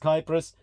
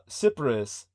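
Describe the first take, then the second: First: The word begins with a K sound. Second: The word begins with an S sound. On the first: This is the Greek form of the name. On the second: This is the English form of the name.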